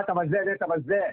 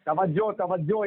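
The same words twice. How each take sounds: First: "तवज्जा" slowly, ending in a long aa; mimicked mispronunciation. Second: "तवज्जो" slowly, ending in an o sound; pronunciation correction. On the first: Debater quoting his rival's slip, "तवज्जा" ending in aa. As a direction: say "तवज्जा" with final aa, quoting the mistake. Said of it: "तूने कहा". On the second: Shown as a demonstration. Debater correcting his rival's word, "तवज्जो" ending in o. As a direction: say "तवज्जो" with a final o. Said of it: "कहा जाएगा".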